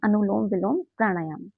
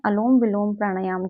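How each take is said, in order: First: The first word is said as three syllables, 'anulom'. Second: The first word is said as two syllables, 'alom'. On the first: The speaker calls it right. "सही pronunciation है" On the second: The speaker calls it wrong. "गलत भी pronounce करते हैं"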